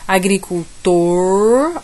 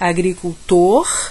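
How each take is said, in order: First: The final R is said with a curled tongue. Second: The final R has a northeastern Brazilian sound. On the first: "ele vai enrolar a língua" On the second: "como no Nordeste"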